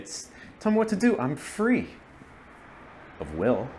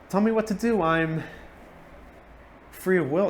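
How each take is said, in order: First: It is said with a hesitant pause. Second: It is said smoothly without hesitation.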